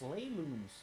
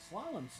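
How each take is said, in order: First: It is said as two words, slay and loom. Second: It is said with a short first vowel, slalom. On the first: The speaker calls it wrong. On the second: The speaker calls it right.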